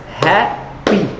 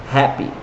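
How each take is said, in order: First: "Happy" as two separate syllables with a gap; split into syllables. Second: Said in the usual way. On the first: Shown as a demonstration. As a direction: break "Happy" in two, hap, then py. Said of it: "how many syllables". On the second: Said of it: "how many syllables do I have in".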